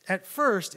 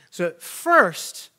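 First: Said in the usual way. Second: FIRST drawn out slow and loud; slow stressed start. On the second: Shown as a demonstration. Teacher stressing the story's turn, slow and loud. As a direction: lean hard on first, slowly.

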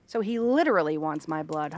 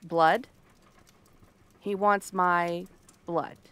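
First: "literally" picked out in a lower-pitched line; low-pitched check with weight on "literally"; stress on literally. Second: He wants my blood, drawn out slowly and lower; slow, low-pitched repeat of a demand; slow, deliberate realization. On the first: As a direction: lean on "literally" as you confirm it. Confirms it is not figurative. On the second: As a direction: let the words land slowly, one at a time. Taking in a startling demand. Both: Acted.

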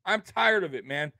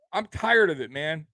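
No difference in how they are said.

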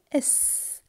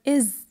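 First: "is" with a soft voiceless hiss; wanted s ending. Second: "is" with a voiced z; rejected z ending. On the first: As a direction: end "is" in sss, no buzz. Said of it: "I say is". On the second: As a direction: buzz the end of "is". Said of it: "I don't say is". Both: Shown as a demonstration.

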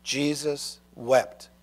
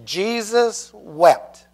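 First: "Jesus wept" softer and very slow, almost to himself; hushed repetition. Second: Jesus wept, drawn out very slowly, each word weighted; slow solemn recitation. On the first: Preacher repeating the short verse to children, hushed. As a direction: let "Jesus wept" fall soft and slow. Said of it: "only two words". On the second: Preacher teaching the memory verse, slow and solemn. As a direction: let "Jesus wept" land slow and heavy. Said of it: "So what's the verse?". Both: Shown as a demonstration.

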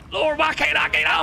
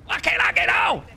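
First: High, loud desperate cry to the heavens; real panic, voice pitched up; panicked plea. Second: Real panic, pitched up and pushed; panicked plea. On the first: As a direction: beg the boat to let you on. Stuck in water, can't board boat. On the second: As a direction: still begging, voice up high. Repeats plea, still stuck. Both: Real, not acted.

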